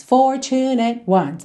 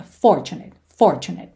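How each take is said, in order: First: Fortunate ones slow, every syllable weighted the same; even syllable stress. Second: Fortunate stressed on FOR, low and clear; first syllable stress. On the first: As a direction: give each syllable equal weight, slowly. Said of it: "como se todas as sílabas fossem tônicas". (Fortunate ones com todas as sílabas tônicas) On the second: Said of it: "tônica na primeira sílaba". (Fortunate com tônica na primeira sílaba) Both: Shown as a demonstration.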